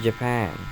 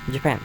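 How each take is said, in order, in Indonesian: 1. Diucapkan dengan aksen Inggris yang alami. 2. Diucapkan dengan aksen gaya Jepang. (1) "Yang seharusnya itu" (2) "Jika kamu berbicara bahasa Inggris seperti kamu berbicara bahasa Jepang"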